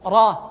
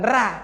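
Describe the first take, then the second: First: The r is said thick, with a heavy sound. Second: The r is said thin, with a light sound. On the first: The speaker calls it right. "Ra, bukan ra" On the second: The speaker calls it wrong. "bukan ra"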